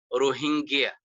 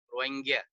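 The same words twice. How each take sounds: First: The middle is said with an h sound. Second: The middle is said with no h sound. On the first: This is how people in Bangladesh and Pakistan say it. "with the H" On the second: This is how the Rohingya people say it. "no H"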